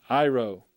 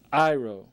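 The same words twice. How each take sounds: First: Iro, said I-ro, the first syllable I punched; stress on first syllable. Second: Iro, I-ro with the first syllable pushed and the pitch lifted; stress on first syllable. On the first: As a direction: hit the opening I of iro. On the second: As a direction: lean hard on the I of iro. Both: Shown as a demonstration. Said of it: "Notice the emphasis upon the first syllable".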